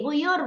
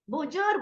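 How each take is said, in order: First: The middle consonant is a y sound. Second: The middle consonant is a j sound. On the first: "Lari ke Y" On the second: "Z dilarikannya ke Jim. Biasanya lidah Jawa ya"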